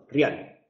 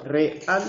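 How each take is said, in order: First: REAL merged into RYAL; single syllable. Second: REAL slowly split as re-AL; two syllables. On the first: Teacher shows the merged result, one-syllable ryal. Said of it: "se convierten en una sola". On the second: Teacher explains the two syllables to class, split re-AL. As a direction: separate "real" into re and al. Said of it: "las dos sílabas". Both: Shown as a demonstration.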